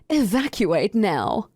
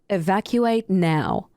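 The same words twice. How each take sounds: First: It sounds casual and unsuited to an emergency. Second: It sounds stern and serious, like an emergency.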